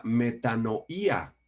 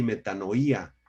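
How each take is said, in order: First: Said in the usual way. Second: Metanoía said me-ta-no-Í-a, stress on the í; metanoía con el acento en la í. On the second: Shown as a demonstration. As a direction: lean on the í in metanoía. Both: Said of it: "con acento en la I".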